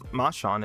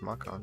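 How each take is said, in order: First: The middle consonant sounds like ch. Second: The middle consonant sounds like k. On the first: The speaker calls it wrong. "it's not Machan" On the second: The speaker calls it right. "I think it's Makan, right? Well, that's how you would pronounce it in English"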